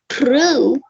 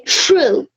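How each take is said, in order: First: It begins with a plain 'tr' sound. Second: It begins with a 'ch' sound. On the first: "Instead of saying true" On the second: "they would say"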